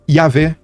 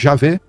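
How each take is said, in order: First: The name begins with a 'y' sound. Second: The name begins with a 'zh' sound.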